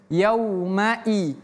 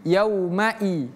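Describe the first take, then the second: No difference in how they are said.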